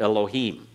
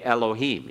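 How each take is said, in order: First: The first vowel is barely there. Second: The first vowel is a full 'e'. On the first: This is how it was said in ancient Hebrew. "Be barely there with the first part of it" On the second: This is the modern teaching pronunciation. "So we've learned to say Elohim"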